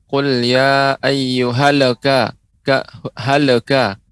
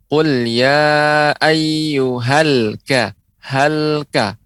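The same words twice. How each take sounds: First: Drawn-out recitation, a stray vowel after the l in "ayyuhal"; slow "halaka", lam wrongly echoed; bouncing lam, wrong. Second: Slow chant, "ayyuhal ka" with the l held still; drawn-out "halka", clean silent lam; lam without bounce. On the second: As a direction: close the l firmly in "halka", no vowel after it. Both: Shown as a demonstration. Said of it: "huruf lam tidak boleh juga, apa, memantul".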